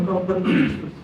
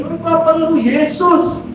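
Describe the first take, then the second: First: Softer, subdued repeat of a preacher's words; let down. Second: Imitating a preacher's high, slow declaration; pendeta. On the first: Retold or imitated. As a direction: say it with mild disappointment, voice dropped. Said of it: "saya kecewa waktu dia ngomong". (mengulang pelan dengan nada kecewa) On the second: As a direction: proclaim it slowly from the pulpit. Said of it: "pendetanya maju ke depan ngomong gini". (menirukan pendeta berseru lambat dan tinggi)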